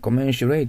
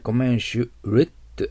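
First: The last syllable ends in a full 'ray' sound. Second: The last syllable ends in a reduced 'ret' sound. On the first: The speaker calls it wrong. "コメンシュレイとならなくて" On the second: The speaker calls it right. "コメンシュレット、ラットとなってるでしょ"

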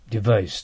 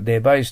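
First: The consonant after the first vowel is a V. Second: The consonant after the first vowel is a B. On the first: The speaker calls it right. "下唇を絶対噛んでください、V は" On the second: The speaker calls it wrong. "デバイスと言っては、英語では多分通じません"

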